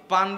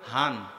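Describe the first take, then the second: First: It is said with a Pabna accent. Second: It is said with a Noakhali accent.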